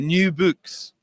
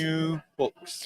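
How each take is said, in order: First: Both words use the same rounded oo vowel. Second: The two words use different vowel sounds. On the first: "here we just have one sound" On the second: "instead of"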